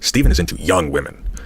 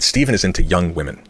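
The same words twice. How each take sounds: First: The sentence is said with some added emphasis. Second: The sentence is said plainly, without extra emphasis. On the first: The women could be twelve years younger. "someone said that differently with with italics" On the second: The women could be ten years younger. "someone said"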